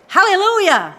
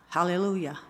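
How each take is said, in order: First: Hallelujah shouted much higher and louder; hallelujah with blast. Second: A limp, unenthused Hallelujah; half-hearted hallelujah. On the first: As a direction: give Hallelujah full joyful blast. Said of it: "you need to give it some blast". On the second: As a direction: mumble Hallelujah without any joy. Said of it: "Don't work, does it?". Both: Shown as a demonstration.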